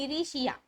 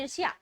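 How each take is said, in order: First: The middle consonants are split up by extra vowels. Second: The middle consonants are said as a tight cluster. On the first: A young child says it this way. The speaker calls it wrong. "लेकिन वो बोल दे रहा है ईरिशिया" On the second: This is the intended standard word. The speaker calls it right. "वो बच्चा बोलना चाह रहा है ईर्ष्या"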